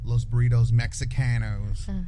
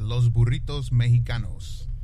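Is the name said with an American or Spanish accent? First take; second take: American; Spanish. First: The name is said with an American accent. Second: The name is said with a Spanish accent.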